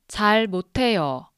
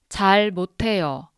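Both takes have the same delivery.

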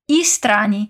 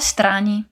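First: An extra vowel sound comes before the S. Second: The S links straight onto the preceding vowel. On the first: The speaker calls it wrong. "não dizemos strani" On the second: The speaker calls it right. "o som emenda levemente no som de O de um po' strani"

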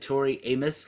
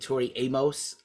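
First: Amos is said to sound like 'anus'. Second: Amos is said to sound like 'Atmos'. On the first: "like anus" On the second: "like Dolby Atmos"

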